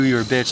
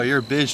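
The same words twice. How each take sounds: First: It is said in a hostile, angry tone. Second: It is said in a playful, teasing tone. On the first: It is a genuine insult. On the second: It is friendly banter between close friends.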